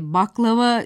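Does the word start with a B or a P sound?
B. The word starts with B and has an A vowel. This is the standard form. "Baklava dememiz gerekirken"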